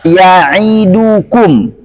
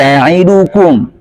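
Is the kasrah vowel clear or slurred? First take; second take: clear; slurred. First: The i vowel is pronounced fully and clearly. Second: The i vowel is slurred and barely audible. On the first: The speaker calls it right. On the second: The speaker calls it wrong.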